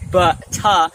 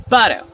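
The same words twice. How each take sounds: First: "butter" split as buh-TAH; hard T. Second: "butter" run together as budder. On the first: Teacher showing what to avoid, hard T in "butter". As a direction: hit a separate T in "butter". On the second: Teacher showing better flow, D sound in "butter". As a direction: make the T in "butter" a D. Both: Shown as a demonstration. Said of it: "replace T with D".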